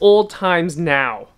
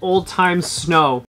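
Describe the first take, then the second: First: The s sound ends the middle word. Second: The s sound starts the last word. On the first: The speaker calls it right. "It's Old Times Now" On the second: The speaker calls it wrong. "I said that completely wrong"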